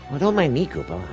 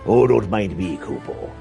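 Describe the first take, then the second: First: It is said in a different character voice. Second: It is said in the pirate character voice.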